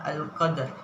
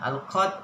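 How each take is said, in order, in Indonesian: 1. Bunyi r di akhir jelas dibunyikan. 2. Bunyi r di akhir dihilangkan.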